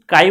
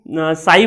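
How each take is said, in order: First: The word begins with a k sound. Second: The word begins with an s sound. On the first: "इसका actual नाम जो है वो काई है" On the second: "काई और साई दोनों ही सही है"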